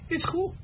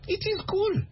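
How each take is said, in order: First: It is contracted into one syllable. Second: It is said as two full words. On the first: The speaker sounds American. The speaker calls it right. "Because Americans say" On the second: The speaker is not American. The speaker calls it wrong. "If you say, oh, it is cool, they know you're not American"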